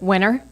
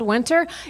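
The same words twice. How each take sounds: First: The t sound in the middle is dropped. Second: The t sound in the middle is clearly pronounced. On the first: This is how the Southern family says it. "we pronounce it winter" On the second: The speaker now talks like a Northerner. "I actually started pronouncing my T's"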